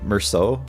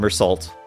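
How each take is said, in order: First: The name gets a French-style pronunciation. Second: The name gets an English-style pronunciation. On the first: The speaker calls it right. "you should probably actually call him Merceau" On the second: The speaker calls it wrong. "we hate the French, so we're not going to pronounce it right"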